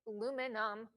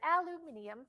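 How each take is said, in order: First: It is said the American way, four syllables. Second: It is said the British way, five syllables.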